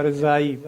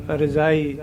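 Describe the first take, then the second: First: ਰਜਾਈ said as raz-ai with a clear z; ਰਜਾਈ with ਜ voiced as z, not j; z sound. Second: ਰਜਾਈ said with a j sound, like the word for quilt; ਰਜਾਈ with the ਜ as English j; wrong pronunciation. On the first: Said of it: "ਜ਼ੈਡ ਦੀ sound ਦੇਣੀ ਆਪਾਂ". (ਰਜਾਈ ਜ਼ੈਡ ਦੀ ਆਵਾਜ਼ ਨਾਲ) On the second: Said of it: "ਰਜਾਈ ਨਹੀਂ ਬੋਲਣਾ". (ਰਜਾਈ ਜ ਦੀ ਆਵਾਜ਼ ਨਾਲ) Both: Shown as a demonstration.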